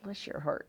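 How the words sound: It is said with a sigh, condescendingly.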